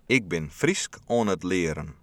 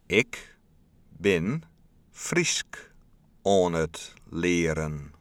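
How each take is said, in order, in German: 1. Der Satz wird in normalem Tempo gesprochen. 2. Der Satz wird sehr langsam gesprochen.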